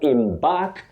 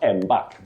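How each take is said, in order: First: The first syllable sounds like 'im'. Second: The first syllable sounds like 'em'. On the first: The speaker calls it right. "pronounced im, then bark" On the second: The speaker calls it wrong. "not embark"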